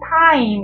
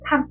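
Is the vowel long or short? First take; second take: long; short. First: The vowel is long and fully drawn out. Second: The vowel is clipped short, almost one sound. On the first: The speaker calls it wrong. "타임 이렇게 하는 게 아니라" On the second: The speaker calls it right. "되게 짧은"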